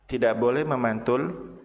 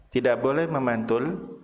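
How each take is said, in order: The two takes are said the same way.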